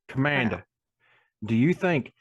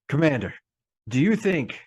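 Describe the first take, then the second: First: It is spoken in a rural hillbilly accent. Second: It is spoken in a non-hillbilly put-on voice. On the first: "why am I suddenly a hillbilly?" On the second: "as I continue to do a different voice now"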